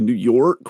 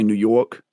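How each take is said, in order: First: The R at the end of York is pronounced. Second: The R at the end of York is dropped.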